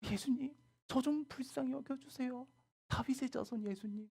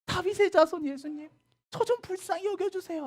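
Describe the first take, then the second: First: Humble pleading. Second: High, loud shouted begging from a distance; mother calling high and loud to Jesus from afar; loud plea. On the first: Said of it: "예수님한테 절하면서". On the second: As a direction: shout for mercy over the crowd. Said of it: "하면서". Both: Acted.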